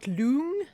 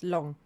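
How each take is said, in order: First: The vowel is drawn out long. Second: The vowel is short and clipped. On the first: The speaker calls it wrong. "It's not loong" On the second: The speaker calls it right. "it's long"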